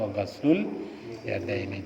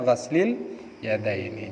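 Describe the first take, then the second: First: The word ghasl ends with a u vowel. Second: The word ghasl ends with an i vowel. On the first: The speaker calls it right. "Jadi yang betul itu adalah" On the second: The speaker calls it wrong. "kemarin dibaca"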